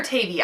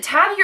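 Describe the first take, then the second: First: "Tavi" as TAY-vee; long-A pronunciation. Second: "Tavi" as TAV-ee; short-A pronunciation. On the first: Reader weighing two pronunciations, "Tavi" as TAY-vee. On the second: Reader weighing two pronunciations, "Tavi" as TAV-ee. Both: Shown as a demonstration. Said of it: "So is it Tavi or Tavi?".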